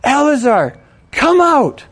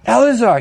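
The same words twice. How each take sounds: First: High, loud summons, rising hard on come out; commanding shout. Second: Calling the name louder into the grave; shouted call. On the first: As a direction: order the dead man out with full voice. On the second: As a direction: call him out of the tomb. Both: Acted. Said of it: "he shouted".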